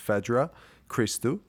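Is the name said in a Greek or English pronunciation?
English. The name is said the English way.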